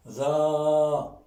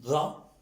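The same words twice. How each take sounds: First: "Ra" with the a held long and level; long vowel. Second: "Ra" with a brief a; short vowel. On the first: Teacher repeating the reading, "Ra" drawn out. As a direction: sustain the a of "Ra". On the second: Teacher repeating the reading, "Ra" kept short. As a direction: say "Ra" short, lifting slightly. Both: Shown as a demonstration. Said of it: "Je répète la, la lecture".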